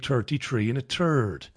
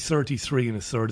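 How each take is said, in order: First: The th sounds are said like t. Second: The th sounds are fully pronounced. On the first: This is how Irish people say it. "Irish people say 33 and a third" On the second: This is a way Irish people do not say it. "We don't say 33 and a third"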